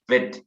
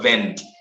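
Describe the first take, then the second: First: The vowel goes straight to the t sound. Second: An n sound comes before the t sound. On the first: The speaker calls it right. "it is vet" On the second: The speaker calls it wrong. "not vent"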